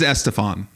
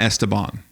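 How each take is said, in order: First: The middle consonant is an f sound. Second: The middle consonant is a b sound. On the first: The speaker calls it right. "it really is [name]" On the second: The speaker calls it wrong. "It's not [name]"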